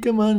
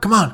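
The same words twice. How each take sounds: First: The voice sounds gentle and warm. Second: The voice sounds harsh and stern. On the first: The listener feels welcome and comes closer. "we'd smile and it's beckon it forward" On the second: The listener feels threatened and stays away. "by harshly saying to the dog"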